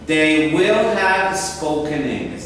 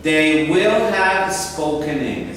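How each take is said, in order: First: Will and have are said as full words. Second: The same.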